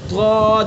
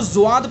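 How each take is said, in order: First: It starts with a heavy emphatic consonant. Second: It starts with a z-like sound. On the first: The speaker calls it right. "जब डाढ़ों पर लगाएंगे और फिर अदा करेंगे" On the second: The speaker calls it wrong. "जुआद पढ़ेंगे तो फिर जा के मुशाबे हो जाएगा"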